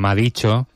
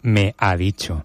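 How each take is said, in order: First: The words are run together without separation. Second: The words are pronounced clearly and separately. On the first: The speaker calls it wrong. "una los artículos de las palabras" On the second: The speaker calls it right. "cuando tiene que decir"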